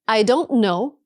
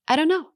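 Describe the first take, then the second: First: Each word is said separately and clearly. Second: The words are reduced and blended together.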